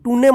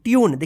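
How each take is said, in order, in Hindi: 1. इसमें अंत में एक अक्षर जुड़ता है, toonay। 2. इसमें y की ध्वनि आती है, tyoon। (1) "टूने मत पढ़िएगा" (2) "देखिए यू उच्चारण हुआ है ना"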